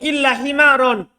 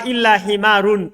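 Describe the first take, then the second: First: The last word ends with an 'an' sound. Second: The last word ends with an 'un' sound. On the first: The excepted word takes the accusative case. "Lebih roji" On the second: The excepted word follows as a substitute. "Tapi dia bolehkan ba badal"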